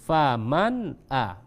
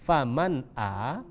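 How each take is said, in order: No difference in how they are said.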